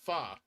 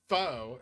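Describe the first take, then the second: First: The vowel sounds like 'uh', as in fun. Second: The vowel sounds like 'oh', as in foe. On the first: The speaker calls it right. "it's pronounced fa" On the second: The speaker calls it wrong. "it's not pronounced foe"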